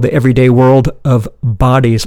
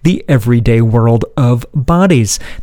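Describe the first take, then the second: First: The title is said at a quicker pace. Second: The title is said at a slower pace.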